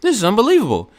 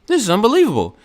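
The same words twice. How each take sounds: First: It is said in a silly put-on voice. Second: It is said in a silly put-on voice.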